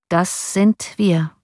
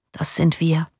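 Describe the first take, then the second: First: Half-speed, each word set apart; slow, weighty repetition. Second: Understated, matter-of-fact resignation; resigned shrug. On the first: Johann repeats his brother's words, slow and deliberate. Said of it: "wiederholte Johann de Witt". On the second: Prisoner shrugs to his brother about the mob's cry, resigned. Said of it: "die Achsel zuckend". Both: A narrator's reading.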